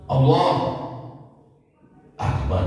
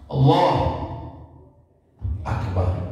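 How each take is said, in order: First: A long pause separates the two words. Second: A long pause separates the two words.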